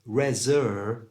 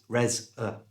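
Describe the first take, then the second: First: The second syllable has a full 'er' vowel. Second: The second syllable has a weak 'uh' vowel. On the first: The speaker calls it wrong. "instead of reser" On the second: The speaker calls it right. "it becomes res-er"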